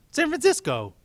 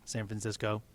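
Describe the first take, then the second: First: San Francisco yelled much higher; exasperated shouted correction; loud correction. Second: Said in the usual way. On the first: Acted.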